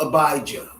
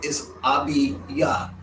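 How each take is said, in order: First: The middle vowel sounds like the word 'eye'. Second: The middle vowel sounds like the letter 'ee'. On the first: "sometimes called Abijah" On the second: "when we say it in Hebrew"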